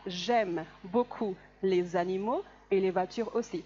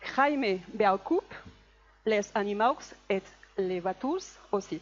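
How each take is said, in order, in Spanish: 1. Las consonantes finales y las letras mudas no se pronuncian. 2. Las consonantes finales y las letras mudas se pronuncian como están escritas. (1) "las consonantes finales generalmente no se pronuncian y la E que no lleva tilde tampoco" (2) "Una persona que nunca ha estudiado francés, ¿cómo la pronunciaría?"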